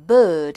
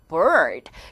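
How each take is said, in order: First: The R is dropped and the vowel lengthened. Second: The R sound is clearly pronounced. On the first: This is the British way of saying it. "영국 사람들은 R 사운드를 줄이는 대신에 앞에 있는 몸이 조금씩 길어져서" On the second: This is the American way of saying it. "미국 사람들은 R 사운드 하는데"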